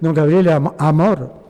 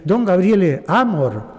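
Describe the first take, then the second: First: Amor is stressed on the last syllable, Spanish style. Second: Amor is stressed on the first syllable, Roman style.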